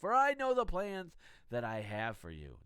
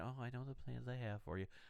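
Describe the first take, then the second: First: It is said loudly, almost shouted. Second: It is said quietly and softly.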